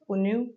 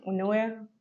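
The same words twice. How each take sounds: First: "Unu" ending on an oo sound; alternative pronunciation. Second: "Unue" said with a sounded e at the end; tentative pronunciation. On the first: Reviewer unsure of a perfume name, alternative pronunciation. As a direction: try "Unu" as oo-noo, without the final e. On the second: Reviewer guessing at a perfume name aloud, tentative pronunciation. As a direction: try "Unue" in three syllables, oo-noo-eh. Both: Shown as a demonstration. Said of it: "I think it's how you pronounce it".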